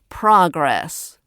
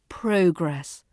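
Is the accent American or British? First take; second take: American; British. First: It is said in an American accent. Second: It is said in a British accent. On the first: The speaker calls it wrong. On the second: The speaker calls it right.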